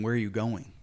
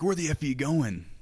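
First: Said in the usual way. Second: F-word take, higher pitch; "Where the F are you going" with a raised, irritated pitch; swearing version. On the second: Shown as a demonstration. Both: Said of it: "You just ask the person".

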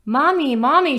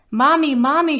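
First: High, loud call for Mommy; child yelling. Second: High, loud panicked call for Mommy; crying out. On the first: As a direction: cry out for Mommy in a panic. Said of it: "she yelled". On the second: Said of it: "she cried, tears falling". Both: Acted.

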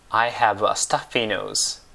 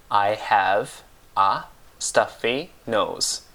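First: Said in the usual way. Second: "I have a stuffy nose" with clear pauses between words; slow right down on "I have a stuffy nose", one word at a time; slow word-by-word model. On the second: Shown as a demonstration. Teacher repeats the English for a blocked nose, slow word-by-word "I have a stuffy nose".

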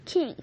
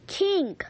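First: Said in the usual way. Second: A sharp called-out King, louder; yelling. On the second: Acted. Girl yelling at her dog to stop chasing. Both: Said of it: "Kyla yells at me".

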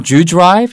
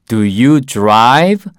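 First: "do you drive" with "do you" squeezed into one quick "dyu"; quick, blended "d'you drive"; fast reduced form. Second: Said in the usual way. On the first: Shown as a demonstration. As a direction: run "do you" together before "drive". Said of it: "do you가 빨리 하면은". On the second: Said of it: "do you라는 발음을 더 빨리 할 경우에는".

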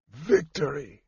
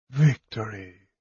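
First: A soft, strained croak of a dying man; faint croak, half breath. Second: Soft, fading whisper of a dying knight; faint breath of a word. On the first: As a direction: force the word out through pain. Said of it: "he croaked". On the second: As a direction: let the word slip out with the last breath. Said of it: "Derek whispered". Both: Acted.

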